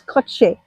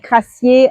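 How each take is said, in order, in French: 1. Le nom est prononcé avec sa prononciation locale. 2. Le nom est prononcé avec une prononciation française. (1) "ça se prononce Crochet" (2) "tout le monde dit Crassier en France"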